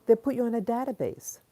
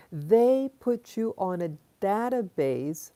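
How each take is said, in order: First: Said in the usual way. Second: Deliberate, drawn-out words for weight; slow, emphatic repeat. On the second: Real, not acted. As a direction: spell it out slowly for them. Repeats the line slowly for emphasis.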